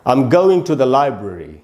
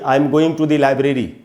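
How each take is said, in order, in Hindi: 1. 'Library' के पहले अक्षर पर स्ट्रेस है। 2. 'Library' के पहले अक्षर पर स्ट्रेस नहीं है।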